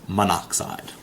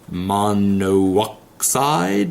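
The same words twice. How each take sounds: First: Only one O sound is said in the middle. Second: Two separate O sounds are said in the middle. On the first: The speaker calls it right. "we get rid of that second O" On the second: The speaker calls it wrong. "very awkward to say"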